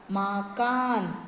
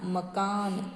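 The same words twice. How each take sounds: First: मकान as "maaa-kaan", slow, first vowel stretched; wrong long vowel. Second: मकान as "ma-kaan", brief first vowel, softer; short first vowel. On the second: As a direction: keep the opening a of मकान short. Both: Shown as a demonstration. Wrong then right word form.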